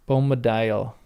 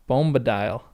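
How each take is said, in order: The two takes are said the same way.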